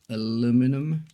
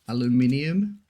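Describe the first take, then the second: First: It is said without the extra vowel before the ending. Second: It is said with an extra vowel before the ending. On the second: "the U K, ... there's an extra I"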